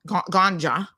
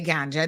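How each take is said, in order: First: The word is said in a hard way. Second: The word is said in a soft way. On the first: This is how outsiders say it. "they kind of pronouncing it hard" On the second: This is the local way of saying it. "they don't really say ganja"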